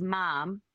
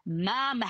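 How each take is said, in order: First: Said in the usual way. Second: "Mom." stretched with an extra syllable; teenage daughter stretching "Mom." into two syllables; teen drawl on Mom. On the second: Shown as a demonstration. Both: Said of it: "Could you do that imitation of her".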